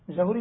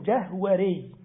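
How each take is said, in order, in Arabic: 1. تُنطق الكلمة بنطقها المصري العامي. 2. تُنطق الكلمة بنطقها العربي الفصيح. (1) "جهوري دي باللغة الدارجة" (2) "في اللغة العربية اسمه جهوري"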